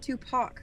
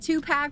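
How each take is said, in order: First: The second syllable sounds like 'pock'. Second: The second syllable sounds like 'pack'. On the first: "like pock marks" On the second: "like two packs of cigarettes"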